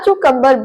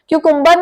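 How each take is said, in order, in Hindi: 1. दूसरा स्वर 'uh' जैसा बोला जाता है। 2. दूसरा स्वर 'yoo' जैसा बोला जाता है। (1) "अ साउंड देना है" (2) "यहाँ पर यू को यू साउंड नहीं देना"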